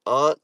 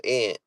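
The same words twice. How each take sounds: First: "aunt" with a broad AH; "aunt" rhyming with want; pronunciation choice. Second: "aunt" said like ant; short A of cat in "aunt"; alternative pronunciation. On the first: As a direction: say "aunt" as ahnt. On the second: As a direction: say "aunt" like the insect. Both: Shown as a demonstration. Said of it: "is it aunt or aunt".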